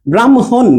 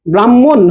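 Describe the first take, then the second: First: ব্রাহ্মণ said bram-hon, m before h; correct pronunciation. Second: ব্রাহ্মণ said bram-mon, without h; wrong pronunciation. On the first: Teacher showing students the fix, ব্রাহ্মণ pronounced bram-hon. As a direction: sound the h after m in ব্রাহ্মণ. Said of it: "ম হ হবে". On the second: Teacher asking how students say it, ব্রাহ্মণ mispronounced as bram-mon. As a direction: double the m in ব্রাহ্মণ, drop h. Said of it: "ব্রাহ্মণ না". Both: Shown as a demonstration.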